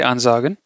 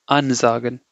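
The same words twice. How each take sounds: First: Said in the usual way. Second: "ansagen" with AN emphasized, a slight pause before "sagen"; stress on prefix. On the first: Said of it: "They will not say ansagen". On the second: Shown as a demonstration. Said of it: "There is a pause or you have to emphasize the prefix".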